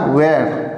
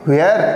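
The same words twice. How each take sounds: First: The h sound is silent in the word. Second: The h sound is pronounced in the word. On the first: The speaker calls it right. "एच जो है हमारा वो silent है" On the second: The speaker calls it wrong. "बिल्कुल नहीं दोस्तों, ये वेयर नहीं है"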